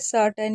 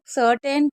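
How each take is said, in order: First: The last syllable is reduced to 'tn'. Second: The last syllable is a full 'ten'. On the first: The speaker calls it right. "इसे सर्टन ही पढ़ा जाएगा" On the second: The speaker calls it wrong. "बहुत से लोग सर्टेन बोलते हैं, जो कि गलत होता है"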